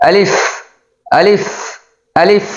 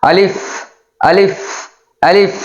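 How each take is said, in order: No difference in how they are said.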